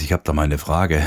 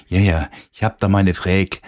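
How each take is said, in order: First: Said in the usual way. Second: "Frage" said as "Fräg", Vogtland dialect; broad Vogtland dialect with clipped "Frage". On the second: Retold or imitated. DJ imitating a Vogtland local asking a question, Vogtland dialect. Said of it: "Im Vogtland gibt's auch so ihre Weltsprachen".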